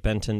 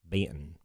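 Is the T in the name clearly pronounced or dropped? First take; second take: clear; dropped. First: The T in the middle is clearly pronounced. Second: The T is dropped in a thick Southern accent. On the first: It is said so strangers can understand the name. "I have to say Benton to people. Otherwise, you think I say Ben and mumble" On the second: It is how the family says the name at home. "my family pronounces it Benton with a really thick Southern"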